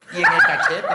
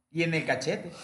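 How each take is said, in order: First: "Y en el cachete" blurted much louder; loud punchline. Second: Said in the usual way. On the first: Shown as a demonstration. Friend adds the punchline about kissing his mom, loud blurt. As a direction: shout "cachete" as the joke lands.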